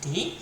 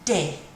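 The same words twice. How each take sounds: First: The letter is said with English pronunciation. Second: The letter is said with French pronunciation. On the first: "In English we say D" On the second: "In French"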